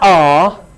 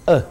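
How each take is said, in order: First: The word is said with its full vowel. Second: The word is reduced to a weak schwa. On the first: The speaker calls it wrong. "Not are" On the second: The speaker calls it right. "The other sounds are all uh"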